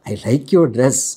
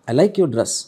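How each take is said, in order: First: It is said in a suggestive, leering tone. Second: It is said in a warm, complimentary tone. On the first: It is a vulgar, suggestive remark. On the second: It is a sincere compliment.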